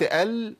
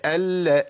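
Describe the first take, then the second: First: "ال" stopped on a briefly held L; moderate-length lam. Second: "ال" with the same held L, released into a; doubled lam, same timing. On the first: Teacher compares timing for students, L briefly held. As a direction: hold the L of "ال" with no vowel after it. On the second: Teacher compares timing for students, doubled L. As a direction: hold the L of "ال" equally long, then add a. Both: Shown as a demonstration. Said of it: "نفس الزمن".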